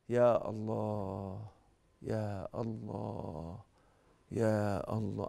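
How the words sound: It is said in a quiet, calm way. It calms the anger down. The speaker calls it right. "حسيتوا بالهدوء"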